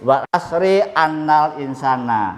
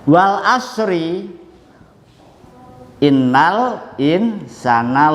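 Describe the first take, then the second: First: The word after 'wal asri' starts with a. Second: The word after 'wal asri' starts with i. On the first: The speaker calls it wrong. "tidak boleh" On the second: The speaker calls it right. "inna wajib dibaca kasroh"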